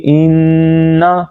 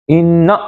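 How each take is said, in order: First: "انا" with long held nn, smooth short ending; no jerk. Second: "انا" with the final a snapped off abruptly; jerked ending. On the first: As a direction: hum the n of "انا" and release gently. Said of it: "جھٹکا بھی نہیں دینا، بلکہ". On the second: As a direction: jolt the end of "انا". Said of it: "جھٹکا بھی نہیں دینا". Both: Shown as a demonstration.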